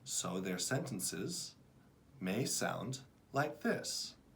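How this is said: The words flow together in connected phrases. The reader is fluent. The speaker calls it right. "Encourage your students to create new phrases"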